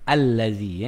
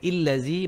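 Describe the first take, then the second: First: The word begins with an 'a' vowel. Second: The word begins with an 'i' vowel. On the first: The speaker calls it right. "Bukan illazi, bukan ullazi" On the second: The speaker calls it wrong. "Bukan illazi"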